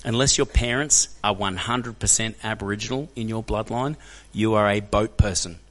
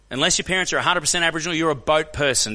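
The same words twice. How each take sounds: First: Slow, measured delivery word by word; drawn-out, weighty verdict; deliberate, emphatic telling-off. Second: Fast, higher-pitched insistence; rapid, heated restatement; brisk, emphatic verdict. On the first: Retold or imitated. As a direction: spell it out slowly and firmly. Blunt lesson to the bigot. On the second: Real, not acted. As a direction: fire it off quickly and higher. Repeats the verdict to audience.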